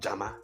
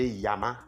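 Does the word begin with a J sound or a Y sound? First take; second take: J sound; Y sound. First: The word begins with a J sound. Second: The word begins with a Y sound. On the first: "It's also correct to say Jama" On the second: "we can say Yama, which is mine"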